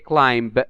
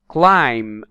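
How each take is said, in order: First: The final B is pronounced aloud. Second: The final B is not pronounced. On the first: The speaker calls it wrong. "we don't say climb" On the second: The speaker calls it right. "the B is in red. So we don't pronounce it"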